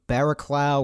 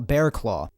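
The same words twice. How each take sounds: First: The name begins with two syllables, 'barra'. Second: The name begins with one syllable, 'bear'. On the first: The speaker calls it wrong. "you think it's pronounced like something along the lines of Barraclough" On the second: The speaker calls it right. "it turns out it's pronounced like Bearclaw"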